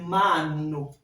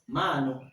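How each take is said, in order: First: The n sound is held long and stretched. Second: The n sound is short and quick. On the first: "Si on avait ici, c'était mano" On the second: "lorsqu'il y a une seule consonne, la prononciation est brève"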